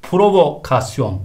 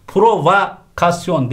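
First: PROVOKASYON with vo; correct pronunciation. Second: PROVOKASYON as "provakasyon"; wrong pronunciation. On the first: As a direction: say provokasyon as pro-vo-kasyon. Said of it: "şeklinde olacak". (provokasyon doğru, o ile) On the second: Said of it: "değil". (provokasyon yanlış, "provakasyon") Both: Shown as a demonstration.

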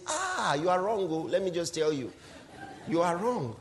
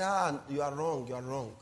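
First: Lightly voiced brushing-off lawyer; a hint of a lawyer waving the client away; dismissive lawyer. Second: Softer, lower mocking brush-off; mock dismissive lawyer. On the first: Preacher imitating a lawyer dismissing his client, lightly voiced brush-off. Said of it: "he says". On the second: Preacher mocking a bad lawyer's reply, soft low mock brush-off. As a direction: murmur it back, mocking the lawyer. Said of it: "I say".

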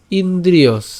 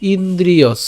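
Both takes have the same delivery.

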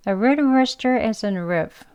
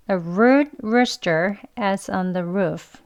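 First: Light reduced Rs in "rude rooster" and "roof"; weak R sentence. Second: Firm R in "rude", "rooster", "roof", very slow; strong R sentence. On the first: Teacher repeating the weak-R sentence for learners. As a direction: soften every R, slow. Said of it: "예, 한 번 더요". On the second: Teacher repeating the strong sentence slowly for learners. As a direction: repeat with every R clear. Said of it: "한 번 더요". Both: Shown as a demonstration.

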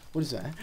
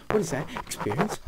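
First: Said in the usual way. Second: Louder, startled second ask; what jumps out louder; a sudden startled double take; surprised. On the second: Real, not acted. Spots something odd in game.

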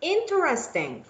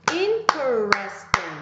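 First: Said in the usual way. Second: "interesting" stretched out in separate syllables. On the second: Shown as a demonstration. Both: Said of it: "to identify how many syllables".

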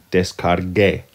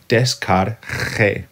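First: Descargue ending in a hard "geh", as in get; preserved hard g. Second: Descargue ending in a harsh throaty Spanish j, "des-car-khe"; wrong soft-g sound. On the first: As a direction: keep the g of descargue hard, "des-car-geh". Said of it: "preserve the sound". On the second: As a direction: say descargue with a raspy kh in place of the g. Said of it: "So we don't want that che". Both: Shown as a demonstration.

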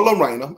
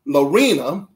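First: Lorena with an "eye" vowel: lo-RYE-na; corrected pronunciation. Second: Lorena with a long "ee": lo-REE-na; first pronunciation attempt. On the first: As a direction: say the middle of Lorena like "rain" turned to "rhine". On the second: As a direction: say the middle of Lorena like "reen". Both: Shown as a demonstration. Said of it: "I think it's Lorena though".

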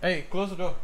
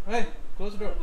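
First: Said in the usual way. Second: Raised call across the room. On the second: Real, not acted. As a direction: call it again, higher. Repeats louder to someone.

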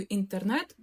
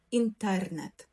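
First: Інтернет stressed on the last syllable, НЕТ; український наголос. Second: Інтернет stressed on the middle syllable, ТЕР; Polish-style інтернет, lean on тер and fall on нет; польський наголос. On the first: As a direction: Ukrainian інтернет, rising onto нет. (інтернет з наголосом на останній склад, нет) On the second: (інтернет з наголосом на тер) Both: Shown as a demonstration. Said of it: "відрізняється від української тільки наголосом".

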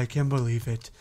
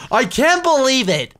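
First: Said in the usual way. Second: Loud, high disbelief; excited yell. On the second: Real, not acted. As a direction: shout it out in disbelief. Repeats line loud and high.

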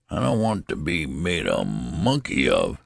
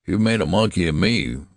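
First: Put-on mild grumbling protest from an old man; complain, with swooping pitch on the words. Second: A touch of fierce indignation; fierce retort. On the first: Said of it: "he complained". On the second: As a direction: retort firmly, mildly angered. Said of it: "retorted Mister Button fiercely". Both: A narrator's reading.

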